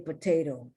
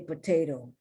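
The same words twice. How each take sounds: First: It is said with an American pronunciation. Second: The same.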